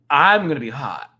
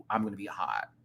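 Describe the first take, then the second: First: Mock heated. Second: Said in the usual way. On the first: Shown as a demonstration.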